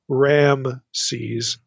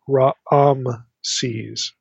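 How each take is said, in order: First: The name has a single A vowel sound. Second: The name has two separate A vowel sounds. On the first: The speaker calls it wrong. "It's not Ramses" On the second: The speaker calls it right. "There's like two A vowels in the pronunciation"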